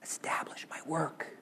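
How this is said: It is said in a soft whisper. "in a little whisper"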